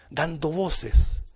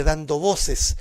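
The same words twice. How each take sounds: First: "Dando voces" drawn out very slowly, each word weighed; slow emphasis. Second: Said in the usual way. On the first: Shown as a demonstration. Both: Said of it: "vamos a enfatizar".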